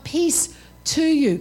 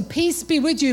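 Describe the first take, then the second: First: Slow, weighted "to you"; stress on TO YOU. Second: Said in the usual way. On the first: Shown as a demonstration. Preacher shows the congregation it's personal, "to you" stressed slowly. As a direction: draw out "to you" to make it personal. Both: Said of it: "Come on, it's personal".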